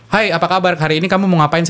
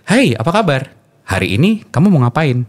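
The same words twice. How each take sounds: First: Quick, bright host greeting; faster speed. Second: Slower, more spaced host greeting; slower speed. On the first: Radio host demoing a fast speed rate, quick delivery. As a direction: rattle it off like a fast presenter. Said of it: "Ini kan speed dengan, dengan lebih cepat gitu". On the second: Radio host demoing a slower speed rate, unhurried. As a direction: ease off and let each word land. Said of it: "Dengan speed yang lebih dipelankan". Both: Shown as a demonstration.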